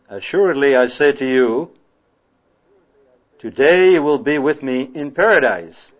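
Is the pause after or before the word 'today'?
before. The pause falls before the word 'today'. Paradise will be reached on that very day. The speaker calls it wrong. "if you put the comma after you"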